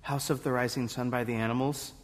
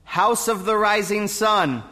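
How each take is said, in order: First: Soft, quick, low mumbled answer; timid, hushed reply to the judges; too quiet to hear. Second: Higher, raised voice to be heard; speaking up. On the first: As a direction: say it small and fast, barely audible. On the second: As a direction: repeat it up and out so the judges hear. Can you speak up?. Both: Acted.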